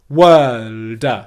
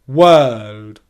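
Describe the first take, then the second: First: The final D ends with a strong burst. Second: The final D ends softly and relaxed. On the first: The speaker calls it wrong. "a big plosive release at the end of the word like this" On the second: The speaker calls it right. "It's very soft and very relaxed"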